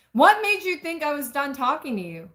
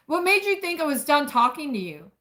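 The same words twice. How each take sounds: First: Sharper, higher retake with edge; redone angry demand. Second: Sharp and high, a hint of military bark; a touch of hot, clipped anger; edged angry demand. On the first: Acted. Narrator rereads the man's demand to her, more heated. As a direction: push the anger harder this time. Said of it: "Let me make this right". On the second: Man confronts the woman who walked out, sharp angry edge. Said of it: "There's an edge to his tone".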